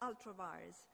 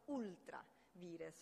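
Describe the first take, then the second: First: It is pronounced with English-style sounds. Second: It is pronounced with Italian-style Latin sounds.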